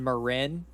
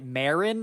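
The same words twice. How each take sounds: First: The place name is said the usual local way. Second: The place name is said like a surname. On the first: The speaker calls it right. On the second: The speaker calls it wrong.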